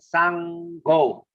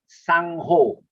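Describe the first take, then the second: First: The g has no h breath after it. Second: The g has an h breath after it. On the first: The speaker calls it right. "S A N G, sang, sango" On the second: The speaker calls it wrong. "not sangho. We don't pronounce as sangho"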